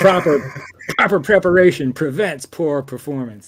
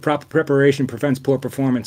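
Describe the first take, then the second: First: It is said slowly and deliberately. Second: It is said at normal speed.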